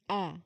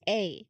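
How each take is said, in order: First: The vowel is a short 'ah' sound. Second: The vowel is a long 'ay' sound. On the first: It is the letter's sound in a word. "But if you pronounce the letter, it's ah" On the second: It names the letter. "If you read the word or if you read the letter, it's A"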